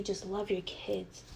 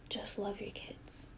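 First: Said in the usual way. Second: Slow, much softer whispered repeat. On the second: Real, not acted. Telling her absent mother to just love her kids, slow whisper. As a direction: breathe it out slowly, almost to herself.

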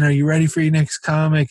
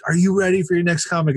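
First: Host rousing crowd. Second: Faster, high-pitched emcee call; host rousing crowd. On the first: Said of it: "Let's try this again". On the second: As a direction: push the crowd harder for a cheer. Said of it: "he's like". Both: Retold or imitated.

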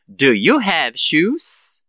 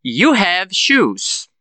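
First: Very slow, "shoes" rising; question intonation. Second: Very slow, "shoes" falling; affirmative statement. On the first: Teacher gives the answer after practice, slow rising question. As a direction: ask slowly, sweeping up on "shoes". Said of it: "com a entonação de pergunta". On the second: Teacher prompts students to transform it, very slow falling statement. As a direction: stretch each word, down on "shoes". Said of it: "Eu falo a frase na afirmativa". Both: Shown as a demonstration.

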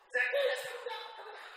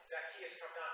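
First: Very loud, high mom holler, laughing through it; mock mama yell, half laughing. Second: Said in the usual way. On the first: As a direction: holler it off the porch like a mama calling her kid home. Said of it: "my mama or something yelling". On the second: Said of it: "now when I hear that".

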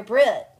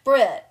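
First: Loud call across to the next car; sudden loud call of a name. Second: Loud repeated call of a name. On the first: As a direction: call her name out to get her attention. Calling her name from car. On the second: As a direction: call her name again, insistent. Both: Retold or imitated.

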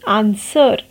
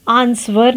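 First: आंसर said "aan-ser", no w sound; silent W. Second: आंसर with the silent w wrongly sounded, "aans-ver"; wrong pronunciation. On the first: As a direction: drop the W completely in आंसर. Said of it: "W is silent". (आंसर में W silent, "व" की आवाज़ के बिना) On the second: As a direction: put a V sound after the S in आंसर. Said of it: "नहीं कहते हम". (आंसर में साइलेंट W को "व" बोलकर, "आंस्वर") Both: Shown as a demonstration.

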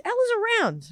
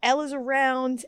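First: Much higher, pointed repeat; pitched-up emphasis. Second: Said in the usual way. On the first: Real, not acted. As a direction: jump up high to drive it home.

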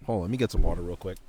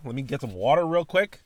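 First: Said in the usual way. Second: Catchphrase with a rising "real"; catchphrase delivery. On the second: Shown as a demonstration. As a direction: sing the catchphrase, stretching "real" upward. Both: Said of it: "I bet y'all haven't heard that in a minute".

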